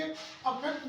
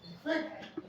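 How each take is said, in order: First: अफेक्ट said with a short a at the start; pronunciation demo. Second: इफेक्ट said with a clear short i at the start; pronunciation demo. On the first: Teacher shows the verb अफेक्ट to parents. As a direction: open अफेक्ट with an a sound. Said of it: "एक जैसा mix up करते रहेंगे". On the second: Teacher shows the noun इफेक्ट to parents. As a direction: open इफेक्ट with an i sound. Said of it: "वो ई की आवाज दे रहा है". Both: Shown as a demonstration.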